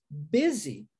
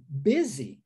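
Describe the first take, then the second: First: Busy said bizzy, slow and careful, lower. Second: Busy said bizzy, U as I and S as Z. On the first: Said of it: "é muito diferente a pronúncia". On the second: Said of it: "um U sendo pronunciado como I". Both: Shown as a demonstration.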